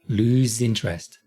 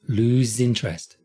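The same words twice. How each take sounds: No difference in how they are said.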